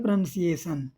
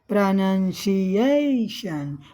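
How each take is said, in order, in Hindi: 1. शब्द बिना किसी स्वर-शिखर के सपाट पढ़ा जाता है। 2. आवाज़ मुख्य तनाव वाले अक्षर पर ऊँची उठती है। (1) "अब हम सीधा पढ़ देते थे पहले" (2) "तो ऊंचा के लिए यहाँ प्राइमरी एक्सेंट लगा हुआ है"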